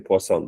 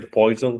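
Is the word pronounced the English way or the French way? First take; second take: French; English. First: It is pronounced the French way, pwah-SOHN. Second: It sounds like the English word poison. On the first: The speaker calls it right. "the French pronunciation" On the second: The speaker calls it wrong. "Don't say poison"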